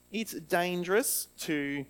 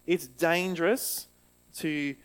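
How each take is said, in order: Both takes have the same delivery.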